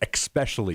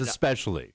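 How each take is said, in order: First: It begins with an added 'ks' sound, 'ex'. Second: It begins with a plain 'es' sound, no 'k'. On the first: The speaker calls it wrong. "you like to add an X to the beginning of that word" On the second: The speaker calls it right. "No, no, no. It's especially"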